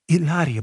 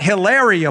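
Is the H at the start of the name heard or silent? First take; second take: silent; heard. First: The name begins with a vowel, no H. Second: The name begins with an audible H sound. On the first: The speaker calls it right. "Silent H" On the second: The speaker calls it wrong. "It's not Hilaria Baldwin"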